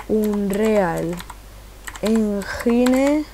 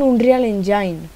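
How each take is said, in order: First: "Engine" said Spanish-style as en-HI-ne; slow typing-along "Unreal... Engine", Spanish j sound for the g; spelled as written. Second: Said in the usual way. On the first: Real, not acted. Reads out address while typing it.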